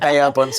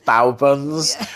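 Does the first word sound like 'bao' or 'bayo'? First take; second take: bayo; bao. First: The first word sounds like 'bayo'. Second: The first word sounds like 'bao'. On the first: The speaker calls it wrong. "I was told off for saying Bayo buns" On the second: The speaker calls it right. "it's Bao buns"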